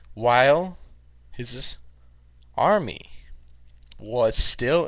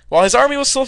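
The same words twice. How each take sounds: First: It is read at a slow speed. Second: It is read at a fast speed.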